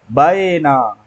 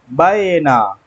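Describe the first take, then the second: Both takes have the same delivery.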